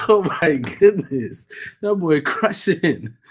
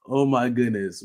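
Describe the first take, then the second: First: Drawn-out, loud awed exclamation; amazed. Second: Said in the usual way. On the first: Real, not acted. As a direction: stretch it out in real awe. Amazed at the boy's gaming.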